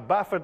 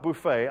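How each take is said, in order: First: The stress is on the first syllable. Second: The stress is on the second syllable. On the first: It means to strike repeatedly. The speaker calls it right. "I buffet my body" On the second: It means an all-you-can-eat meal. The speaker calls it wrong. "Not buffet"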